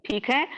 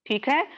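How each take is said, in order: Both takes have the same delivery.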